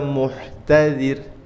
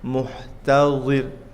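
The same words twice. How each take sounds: First: The z sounds like a light dhal. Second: The z sounds like a heavy za. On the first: The speaker calls it wrong. "seperti huruf zal kurang tepat" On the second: The speaker calls it right.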